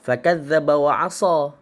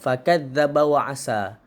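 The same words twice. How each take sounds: First: The s sound is the heavy emphatic sad. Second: The s sound is the light plain sin. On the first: The speaker calls it right. "Itu yang betul" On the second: The speaker calls it wrong. "Yang salahnya"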